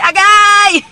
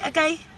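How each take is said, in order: First: It is a loud, intense ouch. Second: It is a short, mild ouch.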